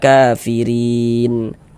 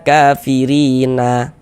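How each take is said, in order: First: The word ends on a stopped n sound. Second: The word ends with a short a vowel. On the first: The reader stops at the end of the word. The speaker calls it right. "kita berhenti di huruf nun, kita baca kafirin" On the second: The reader keeps the final vowel before stopping. The speaker calls it wrong. "Jangan dibaca kafirina baru berwakaf"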